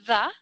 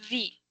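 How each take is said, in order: First: The vowel sounds like 'uh'. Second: The vowel sounds like 'ee'. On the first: The next word starts with a consonant. "con una A" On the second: The next word starts with a vowel. "con una I"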